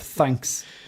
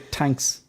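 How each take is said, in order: First: The word starts with a th sound. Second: The word starts with a plain t sound. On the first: The speaker calls it right. "instead of thanks" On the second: The speaker calls it wrong. "we say tanks"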